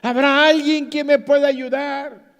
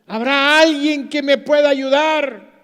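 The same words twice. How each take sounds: First: Loud, high, more insistent call; calling for help. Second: Loud, high desperate call; calling for help. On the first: After silence the climber calls again, louder. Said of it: "Un silencio". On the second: Climber hanging from a branch calls for help, loud and high. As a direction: plead for anyone to hear. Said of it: "empezó a gritar". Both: Retold or imitated.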